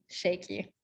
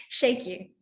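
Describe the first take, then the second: First: Said in the usual way. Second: Shaky voice. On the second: Shown as a demonstration. Teacher demonstrating a throat-blocked voice to the group, shaky. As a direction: let the word shaky tremble, a bit louder. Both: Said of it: "did anyone get shaky from that?".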